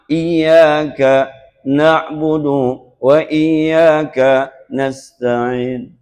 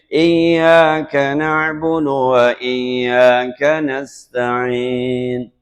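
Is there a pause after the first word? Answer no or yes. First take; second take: yes; no. First: There is a pause after the first word. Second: The phrase flows on without a pause. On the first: The verse is phrased to follow its translation. The speaker calls it wrong. "di iyyaka mestinya berhenti kalau ngikutin terjemah" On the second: The verse is recited following recitation rules. The speaker calls it right. "kalau ikutin tajwid"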